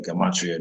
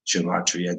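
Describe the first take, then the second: First: Gematria said with a hard g, guh-MAH-tree-uh; Gematria fixed with a firm g at the front; corrected Gematria. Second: Gematria blurred at its opening sound, sh in place of a hard g; first try at Gematria. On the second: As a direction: start Gematria with a slurred sh sound, SHUH-mah-tree-ah. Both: Shown as a demonstration.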